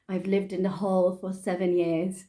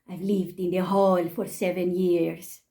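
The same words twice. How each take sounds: First: It is read in the speaker's ordinary accent. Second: It is read in a put-on Spanish-sounding accent. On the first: "when I read" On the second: "what I actually heard was, ... I think that was more Spanish"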